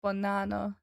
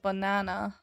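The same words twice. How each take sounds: No difference in how they are said.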